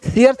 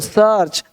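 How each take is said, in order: First: The vowel is split into two separate sounds. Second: The vowel is said as one single sound. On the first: The speaker calls it wrong. "सीआर्च नहीं बोलते" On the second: The speaker calls it right. "सीआर्च नहीं हो सर्च"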